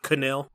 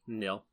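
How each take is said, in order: First: The name starts with a pronounced K sound. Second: The name starts with an N sound, no K. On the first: The speaker calls it wrong. "Not Canil" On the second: The speaker calls it right. "Not the case silent"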